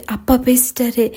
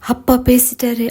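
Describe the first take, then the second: First: Tearful joy. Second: Lightly voiced tearful joy; a touch of joy breaking through tears. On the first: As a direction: repeat it to herself in a hushed, happy voice. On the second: Daughter overjoyed after her father finally calls, mild tearful joy. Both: A narrator's reading. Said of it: "கண்ணீருடன் குதூகலித்தவள்".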